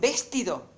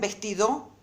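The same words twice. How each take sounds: First: The stress is on the first syllable. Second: The stress is on the last syllable. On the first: "Entonces esta no es la sílaba tónica" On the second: "Esta tampoco es la sílaba tónica"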